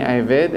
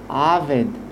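First: The first vowel is an 'e' sound. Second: The first vowel is an 'a' sound. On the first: The speaker calls it wrong. "לא אומרים שלא עשני עבד" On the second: The speaker calls it right. "סוף פסוק, הסוגול הופך להיות קמץ"

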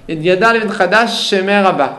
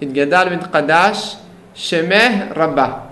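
First: One lengthened sh sound joins the two words. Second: The two sh sounds are said separately. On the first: The speaker calls it wrong. "הם אומרים שין אחת אבל אומרים אותה עם דגש" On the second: The speaker calls it right. "צריכים להפריד"

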